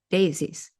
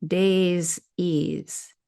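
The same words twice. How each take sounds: First: Said in the usual way. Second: "Days ease" slow, as two separate words; split into two words. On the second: Shown as a demonstration. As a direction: pull the word apart, stretching "Days" and then "ease". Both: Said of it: "Listen to the word daisies".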